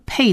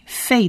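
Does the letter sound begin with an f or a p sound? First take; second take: p; f. First: It begins with a p sound. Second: It begins with an f sound. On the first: The letter has a dot in its middle. The speaker calls it wrong. "它其实不是发P Pei 的音" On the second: The letter has no dot in its middle. The speaker calls it right. "而是发成Fei Fei 的音"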